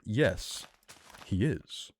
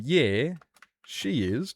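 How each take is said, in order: First: Professional. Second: Relaxed casual. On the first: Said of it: "more professional". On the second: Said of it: "One's very relaxed". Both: Shown as a demonstration.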